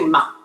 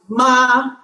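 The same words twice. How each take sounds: First: The pitch stays low without rising. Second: The pitch stays high and level. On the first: "when you're speaking, you just say ma" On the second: "five, five is ma"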